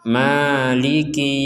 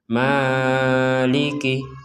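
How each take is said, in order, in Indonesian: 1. Vokal pertama hanya dibaca sebentar. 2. Vokal pertama dibaca terlalu panjang. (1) "kita bacanya panjang dua harokat saja" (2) "itu kepanjangan"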